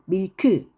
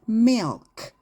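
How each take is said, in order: First: An extra vowel follows the final k. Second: The word ends on a bare k. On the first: The speaker calls it wrong. "밀크 이게 아니라" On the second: The speaker calls it right. "milk 이렇게 발음을 하셔야 돼요"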